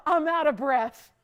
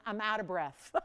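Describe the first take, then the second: First: Laughing it out, louder; breathless laugh through the words. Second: Breathless and quiet with a shaky laugh; winded, almost no air left; out of breath. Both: Real, not acted.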